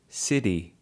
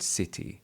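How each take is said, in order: First: The T is a soft, D-like tap. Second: The T is a crisp, clear T sound. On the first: "more American or Australian English in terms of pronunciation" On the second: "you can pronounce the word city"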